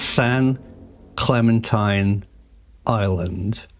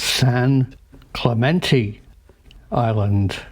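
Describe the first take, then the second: First: The name is said as 'Clementine', ending in '-tine'. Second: The name is said as 'Clemente', ending in '-tay'. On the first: The speaker calls it wrong. "I made a mistake here" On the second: The speaker calls it right. "I should pronounce the island San Clemente"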